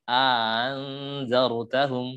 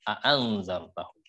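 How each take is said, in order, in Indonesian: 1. Ditambahkan bunyi panjang, dan hamzah kedua dilunakkan. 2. Kedua hamzah dibaca penuh dan terpisah. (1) "A yang pertama dikasih alif, A dua harokat. Hamzah yang kedua dengan tashil" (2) "kalau kiraatnya kita membaca dengan tahqiq"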